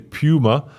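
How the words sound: It is said in a British accent.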